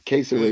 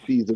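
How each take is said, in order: First: The name is said with three syllables, Cesare. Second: The name is said with two syllables, Caesar. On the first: This is how the TV show says it. "they pronounced it Caesare" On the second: This is how people here usually say it. "we do uh say Caesar Borgia"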